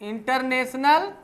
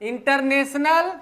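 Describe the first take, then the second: Both takes have the same delivery.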